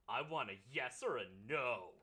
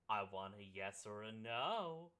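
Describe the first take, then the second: First: It is said in a firm, demanding tone. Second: It is said in a playful, flirtatious tone. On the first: She is putting her foot down. The speaker calls it wrong. "he's saying she's pulling a" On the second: She is flirting and taking the initiative. The speaker calls it right. "this reads more like a"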